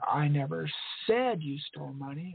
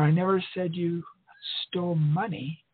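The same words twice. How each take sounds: First: The stress is on "said". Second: The stress is on "money".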